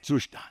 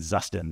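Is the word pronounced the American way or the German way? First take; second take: German; American. First: The word has a German pronunciation. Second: The word has an American English pronunciation. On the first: The speaker calls it right. "Gotta say it, Zustand" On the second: The speaker calls it wrong. "I said Zustand because I'm an American, I say that way"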